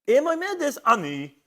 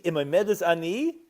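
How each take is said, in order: First: Ani lifted much higher and louder than the rest; stress on ani. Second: Said in the usual way. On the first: Shown as a demonstration. Teacher stressing ani to show who accepts the vow. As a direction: lean hard on the word ani. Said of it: "And ani is nasa mibesara". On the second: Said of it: "And you have to read".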